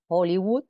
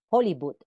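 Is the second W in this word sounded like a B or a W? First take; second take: W; B. First: The second W is sounded as a W glide. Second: The second W is sounded like a B.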